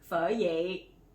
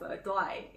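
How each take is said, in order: First: The second word begins with a Y sound. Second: The second word begins with a D sound. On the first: The speaker calls it right. "It's Pho Ye" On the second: The speaker calls it wrong. "it's not Pho Doi"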